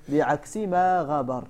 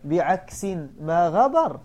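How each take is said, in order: First: بعكس said as biʕaks, no tanween, slowly; without tanween. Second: بعكس said biʕeksin with tanween, slowly. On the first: Teacher reading the verse first without tanween. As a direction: read بعكس plainly ending in -s. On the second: Teacher showing students the better reading with tanween. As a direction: add the -in ending to بعكس, slow. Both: Shown as a demonstration. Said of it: "وقراءته بالتنوين أحسن".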